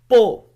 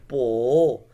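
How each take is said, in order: First: It is said with the fifth tone. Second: It is said with the third tone. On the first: "the fifth tone and the last" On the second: "third tone"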